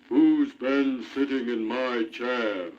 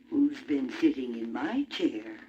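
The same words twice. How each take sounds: First: It is said in a great big voice. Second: It is said in a middle-sized voice.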